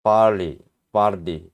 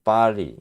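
First: "barley" with a slight R inside; American pronunciation. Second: "barley" with no R, open ah; British pronunciation. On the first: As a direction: tuck an R into "barley". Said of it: "미국식에서는 알 발음이 여기에 들어가". ("barley"에 알 발음을 은근히 넣어서) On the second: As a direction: drop the R in "barley". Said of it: "영국식에는 없어". ("barley"에서 알 발음 없이 영국식으로) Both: Shown as a demonstration.

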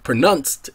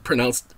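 First: "pronounced" said as pruh-NUNST; "pronounced" with a short u in the second syllable; altered pronunciation. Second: Said in the usual way. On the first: Shown as a demonstration. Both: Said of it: "did you say pronounce or pronounced?".

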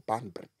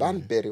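First: Banbury said the alternative way; second pronunciation of Banbury. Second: Banbury said one of two contrasting ways; first pronunciation of Banbury. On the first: Newcomer asking locals how Banbury is said, second variant. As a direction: offer Banbury as the other option. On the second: Newcomer asking locals how Banbury is said, first variant. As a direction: offer Banbury as the first option. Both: Shown as a demonstration. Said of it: "Is it Banbury or Banbury?".

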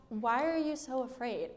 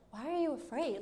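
First: Said in the usual way. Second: Softer, offhand puzzled question; lightly voiced just-woken nonchalance; casual, unbothered. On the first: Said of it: "he asks". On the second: Jesus waking from his nap to the disciples, casually unbothered. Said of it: "I imagine him saying this, like".

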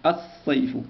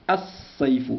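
First: الصيف as as-sayf, doubled s; silent lam again. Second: الصيف said as as-sayf, lam dropped, s doubled; no L in الصيف, double the s; silent lam. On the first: Teacher repeats the sun-letter word for pupils. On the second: Teacher shows the silent lam of a sun letter. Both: Shown as a demonstration. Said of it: "هذا اللام لا ينطق".

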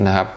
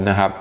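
The two takes are said the same way.

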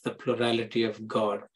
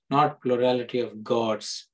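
First: "God" said as a singular, with no final s. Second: "gods" said as a plural, with its final s; stress on GODS. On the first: Preacher correcting to one God for listeners, singular "God". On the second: Preacher ruling out many gods to listeners, stress on "gods". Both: Shown as a demonstration. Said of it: "Get that difference?".

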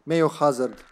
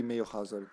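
First: Said in the usual way. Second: Mayo Hazard said the Serbian way; Serbian pronunciation. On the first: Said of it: "Instead of Hazard". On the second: Shown as a demonstration. Converting a gamer's name, Mayo Hazard in Serbian pronunciation. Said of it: "it would be Hazard".

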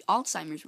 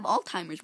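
First: "Alzheimer's" said with an s, like "alts-simers"; corrected pronunciation. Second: "Alzheimer's" said with a t, like "alt-timers"; mispronounced Alzheimer's. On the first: Gamer correcting their own slip, careful "Alzheimer's". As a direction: fix "Alzheimer's" with a clear s sound. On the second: Gamer fumbling a hard word, mispronounced "Alzheimer's". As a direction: say "Alzheimer's" wrongly as "all-timers". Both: Real, not acted. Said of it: "if I pronounced it correctly".

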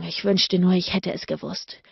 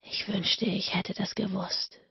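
First: Panted. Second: Soft whispered confession; soft whisper, a regret slipping out; sudden whisper. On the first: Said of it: "keuchte er". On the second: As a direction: whisper it, much softer. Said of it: "flüsterte er plötzlich". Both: A narrator's reading.

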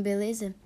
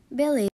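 First: Beleza said as a question, rising at the end; asking. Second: Beleza said louder and falling, as a flat answer; firm answer. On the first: Man asking beleza after confessing love. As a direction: ask beleza with a lifted question. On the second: Woman answering Beleza flatly to the confession. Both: Acted.

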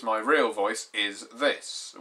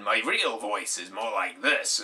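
First: Said in the usual way. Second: Christian Grey. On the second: Pretend. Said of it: "My real voice isn't like Christian Grey's".

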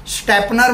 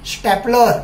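First: स्टॅपनर with an N in place of the L; mispronounced stapler. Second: स्टॅपलर with a clear L before the final R; correct stapler pronunciation. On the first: Teacher showing pupils the mistake, स्टॅपनर wrongly said with N. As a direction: say स्टॅपनर, ending in "-nar". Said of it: "म्हणायचं नाही". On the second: Teacher giving pupils the correction, स्टॅपलर said with L. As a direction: say स्टॅपलर, ending in "-lar". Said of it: "स्टॅपनर म्हणायचं नाही". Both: Shown as a demonstration.

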